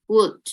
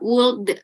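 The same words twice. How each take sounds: First: "would" dibaca "wud", L tidak dibunyikan; L pada "would" diam; would tanpa L. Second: Would diucapkan dengan bunyi L; L dalam "would" ikut dibunyikan; salah ucap would. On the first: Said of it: "L-nya itu silent". (ucapan benar "would" tanpa L) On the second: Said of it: "nggak ada L-nya". (contoh salah, "would" dengan L terdengar) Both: Shown as a demonstration.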